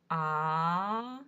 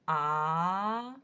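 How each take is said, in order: First: The pitch rises from mid to high. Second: The pitch rises from mid to high.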